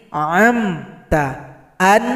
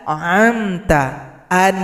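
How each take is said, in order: No difference in how they are said.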